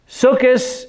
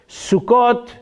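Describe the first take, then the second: First: It is said with a Yiddish pronunciation. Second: It is said with a Hebrew pronunciation. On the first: "in Yiddish" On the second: "in Hebrew"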